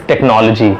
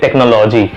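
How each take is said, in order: First: "technology" as tek-NOL-uh-ji; correct pronunciation. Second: "technology" as tek-no-LAW-ji; long "no", open "lo" in "technology"; wrong pronunciation. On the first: Teacher gives the fix, "technology" as tek-NOL-uh-ji. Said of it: "Correct is". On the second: Teacher quotes the mistake, "technology" as tek-no-LAW-ji. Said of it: "which is not correct". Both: Shown as a demonstration.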